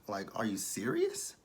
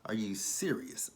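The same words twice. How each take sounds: First: Said in the usual way. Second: Slow whispered disbelief. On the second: Real, not acted. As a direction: breathe it out in a whisper, stunned.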